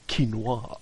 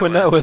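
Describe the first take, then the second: First: The word gets a posh, middle-class pronunciation. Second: The word is sounded out as it is spelled. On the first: "you're middle class, in which case it's quinoa" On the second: "the way it's spelled"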